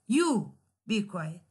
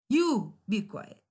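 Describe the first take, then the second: First: You stressed in a slow, firm command. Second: You hit with irritation, said slowly; admonitory stress on You. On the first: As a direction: lean hard on You and slow down. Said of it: "it carries the stress". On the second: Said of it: "admonitory in tone". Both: Shown as a demonstration.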